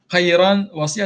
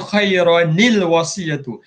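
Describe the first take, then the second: First: The first word ends in a plain 'n' sound. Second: An extra 'ni' sound links the two words. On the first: The speaker calls it wrong. "Khairan wasiyah tak boleh" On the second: The speaker calls it right. "cara bacaan ni kita tukar dia khairanil wasiyatu"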